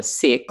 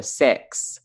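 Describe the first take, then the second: First: "six" in an Australian accent, short clear i. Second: "six" in a Kiwi accent, sounding like "sex"; New Zealand six. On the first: Australian demoing the vowel to her cohost: Australian "six". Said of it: "you would say the number". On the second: Australian mimicking Kiwi vowels to her cohost: mock Kiwi "six". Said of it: "they would say the number". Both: Shown as a demonstration.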